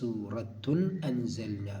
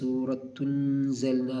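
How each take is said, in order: First: The glottal stop before anzalna is clearly pronounced. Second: The glottal stop is dropped and the words run together. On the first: The speaker calls it right. "ഈ ആ എന്ന പദത്തെ വെളിവാക്കി ഉച്ചരിക്കണം" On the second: The speaker calls it wrong. "എന്ന് പറയാൻ പറ്റില്ല"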